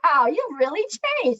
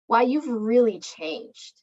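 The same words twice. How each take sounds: First: It sounds admiring and positive. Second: It sounds disapproving and negative.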